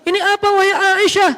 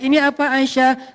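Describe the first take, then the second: First: It is read in a formal, declaiming sermon tone. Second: It is read in a soft, conversational storytelling tone. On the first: It sounds like a public proclamation. The speaker calls it wrong. "Kalau nada khutbah, ... kan nggak enak ya" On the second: It sounds like gentle talk to a loved one. The speaker calls it right. "Storytelling tetap harus dipakai"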